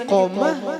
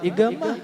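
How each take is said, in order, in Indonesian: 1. Konsonan di tengah itu bunyi q yang dalam. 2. Konsonan di tengah itu bunyi g yang keras. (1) "tulisannya iqomah sebenarnya"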